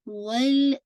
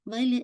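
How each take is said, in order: First: The L sound is held for extra time. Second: The L sound is bounced and clipped short. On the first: The speaker calls it right. "वल टाइम दीजिए" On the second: The speaker calls it wrong. "लाम को बाउंस नहीं कीजिएगा, वल वल ऐसे नहीं"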